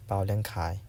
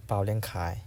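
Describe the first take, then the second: No difference in how they are said.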